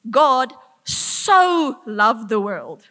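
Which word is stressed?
so. The stress is on 'so'. He loved it to a great extent. "to this extent"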